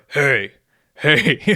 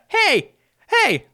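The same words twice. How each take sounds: First: The voice is pitched low and deep. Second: The voice is pitched high and light. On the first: "in a lower" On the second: "I try to go higher pitched"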